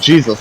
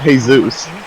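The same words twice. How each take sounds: First: It is said the English way, starting with a J. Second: It is said the Spanish way, starting with an H. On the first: This is what was actually said. The speaker calls it right. "I said Jesus" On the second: This is what the listener thought was said. The speaker calls it wrong. "not Jesus"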